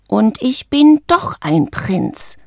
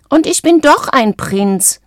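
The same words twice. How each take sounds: First: Slow, stubborn inner protest; sulky anger. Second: Indignant high-pitched squawk; high squawking frog. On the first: Frog thinking angrily on the way to his room, slow and defiant. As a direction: drag out each word with restrained anger. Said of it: "dachte Valentino zornig". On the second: Frog insisting to teasing friends, high squawking. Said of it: "quäkte Valentino mit einer noch höheren Stimme". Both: A narrator's reading.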